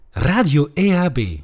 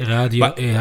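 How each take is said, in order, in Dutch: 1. Het wordt gezegd met levendige, jingle-achtige energie. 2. Het wordt gezegd op een vlakke, onenthousiaste manier. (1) "maar dan wil ik wel iemand interessant die de jingles inspreekt" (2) "En niet"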